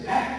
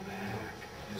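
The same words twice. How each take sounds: First: It is said loud and excited. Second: It is said soft and calm.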